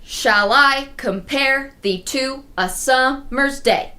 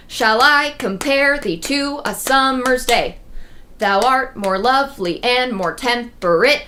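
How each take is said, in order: First: Shall I compare thee to a summer's day said slowly with each iamb's second syllable leaned on; slow, deliberate beat-by-beat reading; scanned slowly. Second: Gentle reading of the sonnet, no beats pushed; recited verse. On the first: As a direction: count out the beats, stressing I, -pare, to, sum-, day. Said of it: "So it is five iambs". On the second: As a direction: read the sonnet line in a slow, even recital. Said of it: "That's iambic pentameter". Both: Shown as a demonstration.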